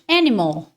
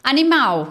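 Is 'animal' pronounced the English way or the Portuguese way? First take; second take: English; Portuguese. First: It is said with English pronunciation. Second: It is said with Portuguese pronunciation. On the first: "In English" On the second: "no português"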